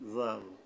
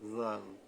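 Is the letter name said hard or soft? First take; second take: soft; soft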